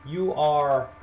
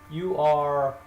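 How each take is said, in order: Both takes have the same delivery.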